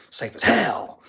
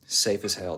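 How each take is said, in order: First: Louder, higher burst on HELL; emphatic repeat. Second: Said in the usual way. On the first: Real, not acted. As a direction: punch "hell" high and loud.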